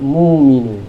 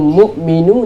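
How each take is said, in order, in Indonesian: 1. Hamzah berubah menjadi vokal panjang. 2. Hamzah mengikuti suku kata pertama.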